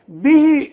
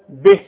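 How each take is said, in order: First: The final vowel is lengthened to two counts. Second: The word ends short with no lengthening. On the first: The reading continues into the next word. "به إذا وصلت" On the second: The reading stops on this word. "إنما إذا وقف بدون مد"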